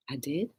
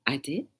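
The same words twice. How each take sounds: First: "I did?" asked back in mild surprise, rising; surprised question. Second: Said in the usual way. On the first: Shown as a demonstration. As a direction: react as if you never knew. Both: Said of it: "You see the reaction?".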